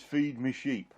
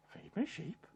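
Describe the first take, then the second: First: Said in the usual way. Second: Hushed, high questioning repeat; barely voiced baffled query; puzzled echo. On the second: Peter echoes it, puzzled.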